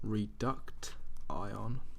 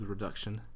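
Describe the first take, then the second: First: The word is sounded out in separate spelled parts. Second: The word is said with its normal pronunciation.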